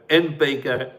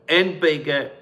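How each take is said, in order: Both takes have the same delivery.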